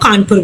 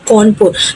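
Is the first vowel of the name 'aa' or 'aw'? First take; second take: aa; aw. First: The first vowel sounds like 'aa'. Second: The first vowel sounds like 'aw'. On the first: This is the present-day name. "In present time हम लोग क्या बोलते हैं उसको, कानपुर बोलते हैं" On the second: This is the older colonial-era name. "कौनपुर बोला जाता था उसको पहले टाइम में"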